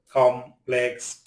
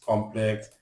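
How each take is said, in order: First: "complex" broken into two separate syllables; "complex" with a gap mid-word; split syllables. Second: Said in the usual way. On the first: Shown as a demonstration. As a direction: sound out "complex" slowly in syllables. Word split by syllable, then whole.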